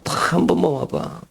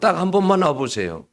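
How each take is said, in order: First: It is said in an earnest, pleading tone. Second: It is said in a plain, neutral tone.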